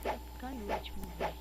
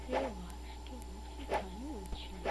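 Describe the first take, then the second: First: Said in the usual way. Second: Soft unvoiced whisper. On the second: Real, not acted. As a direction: whisper it to yourself. Same words whispered.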